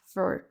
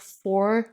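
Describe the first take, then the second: First: The vowel is reduced and barely heard. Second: The vowel is full and clearly pronounced. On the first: The speaker calls it right. "il va être réduit à for" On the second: The speaker calls it wrong. "Attention à ne pas dire for avec le O"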